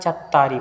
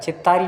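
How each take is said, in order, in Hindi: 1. पहले अक्षर में स्वर 'a' है। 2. पहले अक्षर में स्वर 'i' है। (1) "चत्तारी बोलना है" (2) "चित्तारी नहीं बोलना है"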